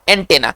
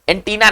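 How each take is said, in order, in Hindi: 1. दूसरा स्वर छोटी 'e' ध्वनि है। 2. दूसरा स्वर लंबी 'ee' ध्वनि है। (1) "आपको उसका सही जो उच्चारण है वो है एंटेना।" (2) "देखिए एंटीना नहीं, हम लोग अपने उसको अपभ्रंश करके एंटीना एंटीना कहते हैं।"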